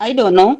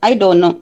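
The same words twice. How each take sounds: The two takes are said the same way.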